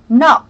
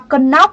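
First: The initial k is silent; it starts with n. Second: The initial k sound is pronounced before the n. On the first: The speaker calls it right. "Cái này âm ca này là âm câm, cho nên chúng ta chỉ đọc là knock" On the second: The speaker calls it wrong. "Đừng bạn nào đọc là cần knock nhá"

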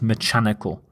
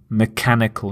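First: The middle consonant is a soft ch sound. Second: The middle consonant is a hard k sound. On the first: The speaker calls it wrong. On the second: The speaker calls it right. "the pronunciation of the CH is the K sound"

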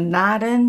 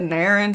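First: The name is pronounced in a Japanese-sounding way. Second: The name is pronounced in an American-sounding way. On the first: "Naren sounds very Japanese" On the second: "Naren sounds very American"

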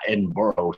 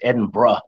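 First: The name is pronounced as it is spelled. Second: The name is not pronounced as it is spelled. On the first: The speaker calls it wrong. "not Edinburgh" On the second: The speaker calls it right. "She always corrects me and says it's Edinburgh"

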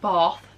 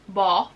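First: The word is said in a southern English accent. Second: The word is said in a northern English accent. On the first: This is how locals in the south say it. "They call it Bath here in the south" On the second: This is how people from the north say it. "I'm from the north originally, so Bath"

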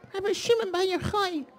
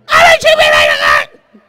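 First: It is said very quietly. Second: It is screamed very loudly.

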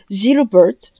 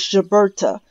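First: The name is said with a French pronunciation. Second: The name is said with an English pronunciation. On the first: The speaker calls it right. "pronounced in the original French dialect as Gilbert" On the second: The speaker calls it wrong. "in the common English, or say modern English pronunciation"

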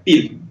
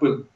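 First: The vowel is a front ee-like sound. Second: The vowel is the central Russian ы sound. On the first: The speaker calls it wrong. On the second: The speaker calls it right.

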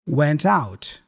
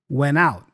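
First: The T after N is pronounced. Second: The T after N is dropped.

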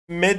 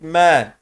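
First: The vowel is short and clipped. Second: The vowel is drawn out long. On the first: The speaker calls it wrong. "me değil artık" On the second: The speaker calls it right. "Uzatıyor bak"

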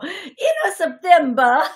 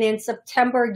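First: It is said in an Italian-like accent. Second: It is said in a plain accent.

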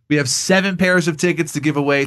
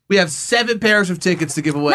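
First: The voice sounds gentle and calm. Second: The voice sounds angry and forceful.

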